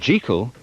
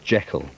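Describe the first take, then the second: First: The name is said the older, non-movie way. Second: The name is said the familiar movie way.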